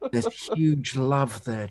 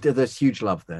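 First: The line is said in a hushed, awestruck tone. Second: The line is said in a plain, casual tone.

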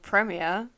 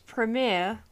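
First: The word is said in a non-American way. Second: The word is said in an American way. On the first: The speaker calls it right. "as I would say" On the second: The speaker calls it wrong. "Don't know why I said premiere, like I'm an American"

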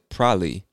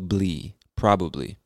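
First: It is squeezed into two syllables, like prolly. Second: All three syllables are fully pronounced.

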